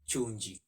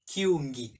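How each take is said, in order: First: The word starts with a ch sound. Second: The word starts with a k sound. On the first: The speaker calls it wrong. "and not chunji" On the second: The speaker calls it right. "the right way, should be kiungi"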